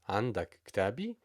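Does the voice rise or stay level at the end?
rise. It is said with question pitch.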